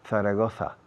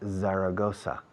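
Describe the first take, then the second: First: The z sounds are said as th sounds. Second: The z sounds are said as s/z sounds. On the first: The speaker calls it wrong. "Don't say Zaragoza. People don't understand Zaragoza" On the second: The speaker calls it right. "They understand Zaragoza"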